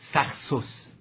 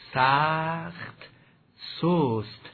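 First: The word endings are clipped short. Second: The word endings are drawn out and lengthened. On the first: The natural melody of the poem collapses. The speaker calls it wrong. "نگوییم سخت سست، اگر سخت سست بگیم هم ملودی فرو می افتد" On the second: The natural melody of the poem is kept. The speaker calls it right. "کشیده تلفظ بفرمایید"

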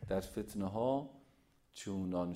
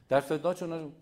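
First: The phrase is read slowly and clearly. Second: The phrase is read quickly and hurriedly. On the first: The speaker calls it right. "مثل من بخونید" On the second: The speaker calls it wrong. "بعضی ها اینجوری هست"

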